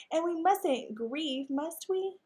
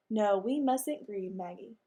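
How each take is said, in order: First: Slow, higher, sweet lady dog voice on "mustn't grieve"; sugary Maggie. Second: Henry's own voice. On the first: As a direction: coax him sweetly, rising on "must we". Maggie voiced, then Henry echoes. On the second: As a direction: echo her line gravely in the dog's own voice. Henry echoes Maggie's line. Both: Acted.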